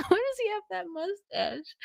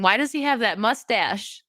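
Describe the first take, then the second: First: Soft, high little voice; high-pitched squeak. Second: Said in the usual way. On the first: Real, not acted. Host baffled by a mustache, soft high squeak. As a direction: repeat it small and high, after a laugh.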